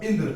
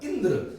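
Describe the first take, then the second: First: Said in the usual way. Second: Indra with the opening इ pitched high, then falling; light stress on first vowel. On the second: Shown as a demonstration. Teacher showing students syllable stress, इ of Indra stressed. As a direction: lean lightly on the इ that starts Indra. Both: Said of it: "तो ई पर जोर देंगे हल्का सा".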